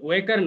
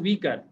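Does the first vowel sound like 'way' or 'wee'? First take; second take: way; wee. First: The first vowel sounds like 'way'. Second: The first vowel sounds like 'wee'. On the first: The speaker calls it wrong. "ওয়েকার না" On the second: The speaker calls it right. "এটা হচ্ছে উইকার"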